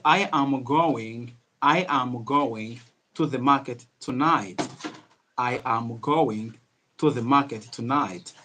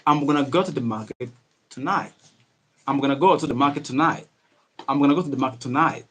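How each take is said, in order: First: Each word spaced out slowly and fully; unhurried, drawn-out teaching pace; slow, careful English. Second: Quick, run-together words with a reduced "gonna"; speedy English. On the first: Teacher models a sentence for learners, slow and careful. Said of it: "speak English in a slow manner". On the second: Teacher shows how to speak faster, speedy linked words. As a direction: rattle it off in connected casual speech. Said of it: "speak a little bit, a little bit speed". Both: Shown as a demonstration.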